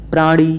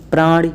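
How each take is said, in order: First: प्राणी with a held "nee" ending; long final ee. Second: प्राणी cut short at the end; short final i. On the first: Teacher correcting students, long ee ending प्राणी. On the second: Teacher showing the error, short i ending प्राणी. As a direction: say प्राणी as "prani" with a quick i. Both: Shown as a demonstration. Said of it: "बड़ी की मात्रा लग जाती है".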